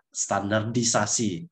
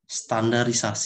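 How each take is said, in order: First: There is a d sound before the ending. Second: There is no d sound before the ending. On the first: This is the standard form. The speaker calls it right. "yang baku itu adalah ini standardisasi" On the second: This form is easier to say but non-standard. The speaker calls it wrong. "lebih mudah diucapkan"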